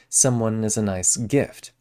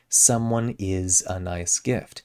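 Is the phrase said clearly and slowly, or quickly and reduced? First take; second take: quick, reduced; clear, slow. First: It is quick, with a reduced, blended vowel. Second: It is slow, with each word said clearly. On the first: The speaker calls it right. "that a in as gets turned into the I" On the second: The speaker calls it wrong. "don't clearly and slowly say"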